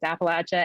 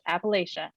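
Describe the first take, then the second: First: The middle sounds like 'apple at ya'. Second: The middle does not sound like 'apple at ya'. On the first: "you can think about it as in I'm going to throw an Appalachia" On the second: "there are regions who that pronounce it Appalachia"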